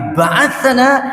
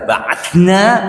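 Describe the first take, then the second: First: A short vowel sits between 'th' and 'n'. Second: The 'th' runs straight into 'n' with no vowel. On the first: He has sent us. "Tapi ba'athana dia telah mengutus kami" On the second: We have sent someone. "Kalau dibaca ba'athna berarti kami telah mengutus"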